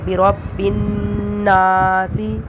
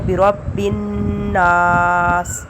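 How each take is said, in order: First: The word ends with a short vowel i. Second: The word ends on the consonant s. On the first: The reciter continues to the next word. "अगर पूरा पढ़ेंगे तो फिर हम पढ़ेंगे" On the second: The reciter stops after this word. "वक़फ़ करेंगे तो"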